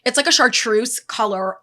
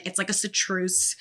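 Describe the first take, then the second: First: Chartreuse said "shar-troose" with sh and a clear r; corrected chartreuse. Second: Chartreuse said like "sa-troose" with an s and no r; mispronounced chartreuse. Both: Real, not acted.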